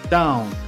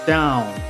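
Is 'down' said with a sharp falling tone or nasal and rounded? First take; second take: nasal; nasal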